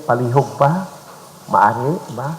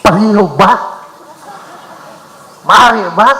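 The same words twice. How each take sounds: First: "palihog ba? Maari ba?" said softly and a little quicker; gentle request. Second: "Palihog ba? Maari ba?" said louder and higher, pushy like an order; a request that sounds like a command; demanding tone. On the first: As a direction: ask kindly, a real please. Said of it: "be conscious and aware also of the tone of our voice". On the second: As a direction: bishop showing a demand disguised as please. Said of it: "the tone of our voice does not say we are making a request". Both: Shown as a demonstration.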